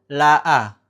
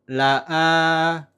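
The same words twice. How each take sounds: First: The final vowel is short, one beat. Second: The final vowel is held long, two beats. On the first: "maka dia dibacanya pendek" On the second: "dibacanya panjang dua ketukan"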